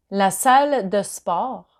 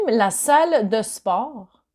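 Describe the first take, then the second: No difference in how they are said.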